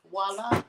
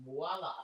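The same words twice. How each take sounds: First: Voila with a rising, showy lift. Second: Voila dropped soft and low, falling. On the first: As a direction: present it with a flourish. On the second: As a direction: let it settle quietly. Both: Shown as a demonstration. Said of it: "That's a voila".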